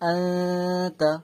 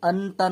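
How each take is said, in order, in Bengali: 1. n একটি নাসিক্য ধ্বনির মধ্যে লুকিয়ে আছে। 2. t-এর আগে n স্পষ্টভাবে উচ্চারিত হয়। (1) "আতা করতে হয়" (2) "আনতা না বলে"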